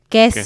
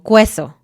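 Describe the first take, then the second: First: No U sound is heard after the K. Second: A U sound is heard after the K. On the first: The speaker calls it right. "nunca se va a pronunciar la U" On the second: The speaker calls it wrong. "pronunciar cada letra de forma individual"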